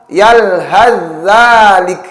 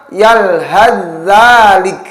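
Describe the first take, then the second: The two takes are said the same way.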